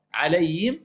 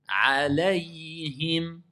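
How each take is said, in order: First: Alayhim run together with a rise, the ha dropped; wrong take. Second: Alayhim slowed right down, each letter sounded: a-la-y-him; every letter clear. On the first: The teacher shows students the faulty Alayhim. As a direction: toss off Alayhim quickly, swallowing the ha. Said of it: "c'est faux". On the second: The teacher models the right way, Alayhim sounded out slowly. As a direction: lay out Alayhim one letter at a time. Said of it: "chaque lettre". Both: Shown as a demonstration.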